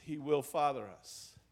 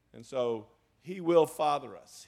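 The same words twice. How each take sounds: First: Father pressed down, falling; stress on father. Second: Will pressed down firmly, falling; stress on will. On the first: Preacher repeating for congregation, weight on father. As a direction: hit the word father. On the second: Preacher to congregation, stress on will. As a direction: lean on the word will. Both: Shown as a demonstration.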